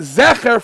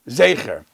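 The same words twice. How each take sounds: First: The first vowel is a short 'eh' sound. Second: The first vowel is a long 'ay' sound. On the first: "Segel first" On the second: "only afterwards you say Zecher"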